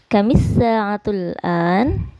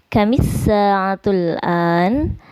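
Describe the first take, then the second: The two takes are said the same way.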